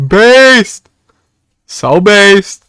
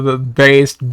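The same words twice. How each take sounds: First: Higher and louder cry of based; excited shout. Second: Said in the usual way. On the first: Real, not acted. To chat hyping up a clip, an excited shout. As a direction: cheer the word based out. Repeated word, building to a shout.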